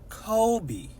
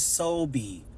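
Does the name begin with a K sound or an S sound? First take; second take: K sound; S sound. First: The name begins with a K sound. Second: The name begins with an S sound. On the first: The speaker calls it right. "that is going to just be a K" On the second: The speaker calls it wrong. "I don't use the S sound, even though it's a C"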